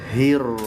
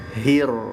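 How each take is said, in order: The two takes are said the same way.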